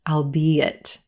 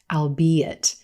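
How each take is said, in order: First: The word is said with three syllables. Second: The word is said with three syllables.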